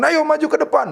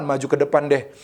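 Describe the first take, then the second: First: High preacher's call to the congregation; calling forward. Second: Said in the usual way. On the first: Retold or imitated. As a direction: re-enact summoning people up, pitched high. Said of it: "akhirnya saya katakan".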